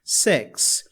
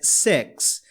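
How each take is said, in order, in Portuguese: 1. A vogal soa como um 'eh' aberto. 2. A vogal soa como um 'eh' aberto.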